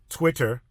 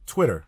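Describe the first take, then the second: First: The word is said in an exaggerated, deliberate way. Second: The word is said in a relaxed, natural way. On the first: The speaker calls it wrong. "mind me saying it like that" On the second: The speaker calls it right. "say it more naturally"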